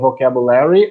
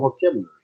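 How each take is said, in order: First: It is said in an American accent. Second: It is said in a British accent.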